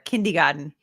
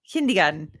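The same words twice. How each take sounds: Both takes have the same delivery.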